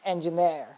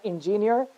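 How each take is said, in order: First: "engineer" as en-juh-NEER; correct stress. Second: "engineer" as in-JIN-yer; wrong vowels. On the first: Teacher correcting students, "engineer" stressed on NEER. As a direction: open "engineer" with "en", stress the last syllable. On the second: Teacher showing the mistake, "engineer" pronounced in-JIN-yer. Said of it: "it's not". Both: Shown as a demonstration.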